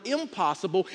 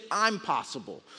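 First: Said in the usual way. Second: "I'm possible" with a small gap after I'm; "I'm possible", the word impossible opened up by a space; split into two words. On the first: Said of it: "look at the word impossible". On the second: Shown as a demonstration. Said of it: "put a little space in it".

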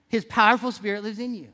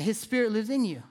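First: "powerful" punched as the key word; stress on powerful. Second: Said in the usual way. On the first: Real, not acted. Preacher restating a truth to his congregation, stress on "powerful". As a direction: lean on "powerful", then let the line fall.

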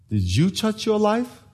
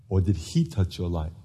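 First: YOU lifted high, question left hanging; slow, high question pointing at YOU; stress on YOU. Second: HE set against the rest, low and soft; soft, low answering question weighted on HE; stress on HE. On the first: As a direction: lean on "you" and keep the pitch up. Contrasts you against he. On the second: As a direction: drop low and lean on "he". Contrasts he against you. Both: Shown as a demonstration.

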